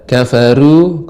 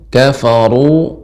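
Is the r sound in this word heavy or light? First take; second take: light; heavy. First: The r is pronounced thin and light. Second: The r is pronounced thick and heavy. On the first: The speaker calls it wrong. "kalau kafaru tipis" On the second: The speaker calls it right. "Ru dibaca dengan tebal"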